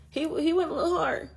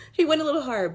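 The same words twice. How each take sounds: First: High and giggly, "went" lifted; amused disbelief, pitched up; amused laugh. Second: High, laughing and louder on "He went a little hard". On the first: Joking to viewers about God's answer, laughing. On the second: Repeating the joke to viewers, laughing harder. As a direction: still cracking up, pushing it out. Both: Real, not acted.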